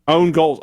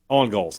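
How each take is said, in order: First: The first word is said with a long 'own' vowel. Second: The first word is said with a short 'on' vowel. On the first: "I don't like saying own goals, though. That doesn't sound right" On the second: "I just say on goals"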